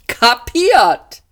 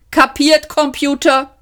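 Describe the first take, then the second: First: High, loud chirpy "Kapiert" answer; a perky ship computer confirming; lightly voiced computer. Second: High, brisk checking question; a cheery captain making sure the computer got it; lightly voiced captain.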